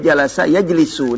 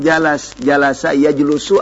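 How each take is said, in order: First: The vowel after the l is i. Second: The vowel after the l is u. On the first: The speaker calls it right. "ini jalasa ya jelisu" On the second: The speaker calls it wrong. "Enggak mungkin"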